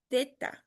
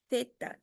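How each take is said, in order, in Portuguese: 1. O primeiro som é um th, com a língua entre os dentes. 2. O primeiro som é um th, com a língua entre os dentes.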